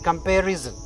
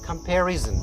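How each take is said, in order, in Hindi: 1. आखिरी अक्षर z ध्वनि से शुरू होता है। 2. आखिरी अक्षर z ध्वनि से शुरू होता है।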